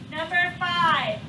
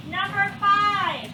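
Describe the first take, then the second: First: Said in the usual way. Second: Slow announcing. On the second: Shown as a demonstration.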